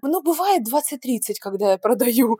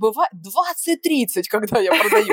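First: It is said casually, downplaying the numbers. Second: It is said proudly, highlighting the numbers.

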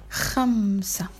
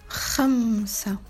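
No difference in how they are said.

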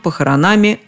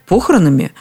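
First: The stress is on the ending. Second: The stress is on the first syllable. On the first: The speaker calls it right. "а дальше все на окончание" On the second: The speaker calls it wrong. "а там, глядишь, и похоронами"

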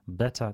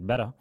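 First: The t is clearly articulated, British style. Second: The t is a quick tap, American style.

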